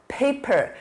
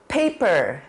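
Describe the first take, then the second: The two takes are said the same way.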